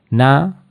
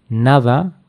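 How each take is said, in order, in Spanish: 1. La D entre vocales se omite. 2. La D entre vocales se pronuncia. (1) "dirían na" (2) "en lugar de nada"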